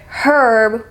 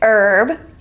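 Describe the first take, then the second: First: The initial H is sounded. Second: The initial H is silent. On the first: The speaker calls it wrong. "we don't pronounce it herb" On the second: The speaker calls it right. "we pronounce it herb"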